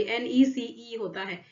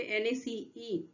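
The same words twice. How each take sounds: First: Said in the usual way. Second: Slow, soft letter-by-letter एन ए सी ई with ए stressed; wrong spelling spelled out. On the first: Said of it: "नेसेसरी, sorry". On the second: Shown as a demonstration. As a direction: spell out एन ए सी ई deliberately, pointing at the wrong ए. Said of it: "ए लगा हुआ है यहाँ पे".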